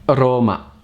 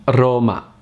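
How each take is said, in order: Both takes have the same delivery.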